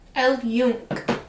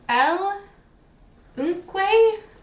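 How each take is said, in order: First: The second word starts with a 'y' sound. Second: The second word starts with a plain vowel sound. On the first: The speaker calls it right. "That's what Google told me" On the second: The speaker calls it wrong. "that's not a good pronunciation"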